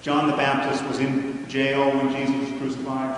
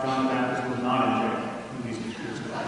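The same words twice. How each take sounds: First: Said in the usual way. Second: Not stressed, pitch falling on it. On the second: Shown as a demonstration. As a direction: lean on not to show the contradiction. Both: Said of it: "that say things like".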